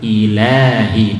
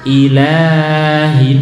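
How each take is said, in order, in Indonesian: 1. Vokal 'la' ditahan selama dua harakat. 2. Vokal 'la' ditahan terlalu panjang. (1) "dua harokat" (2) "nah terlalu panjang ya"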